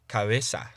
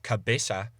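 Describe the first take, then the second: First: The b is soft, lips nearly but not touching. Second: The b fully stops the air with closed lips. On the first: The speaker calls it right. "you'd pronounce it as cabeza" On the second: The speaker calls it wrong. "rather than pronouncing the word for head as cabeza"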